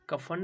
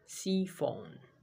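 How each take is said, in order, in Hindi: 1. यह शब्द 'k' ध्वनि से शुरू होता है। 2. यह शब्द 's' ध्वनि से शुरू होता है। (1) "कफन नहीं बोलेंगे इसको" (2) "क्या बोलेंगे हिंदी में"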